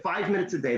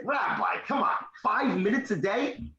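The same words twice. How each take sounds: First: Said in the usual way. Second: Higher-pitched disbelieving question; incredulous. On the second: Retold or imitated. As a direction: push back, mildly incredulous. Retold disbelief at rabbi's claim.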